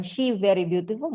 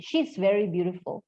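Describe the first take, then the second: First: "she" said bare, no s sound after it; missing 's. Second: "She's" with its final s sounded clearly. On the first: Teacher shows students the common mistake: "she" without the s. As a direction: drop the s so it's just "she very". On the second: Teacher shows students the right way: "She's" with a clear s. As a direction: land the s of "She's" before "very". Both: Shown as a demonstration. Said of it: "nggak kedengeran is-nya".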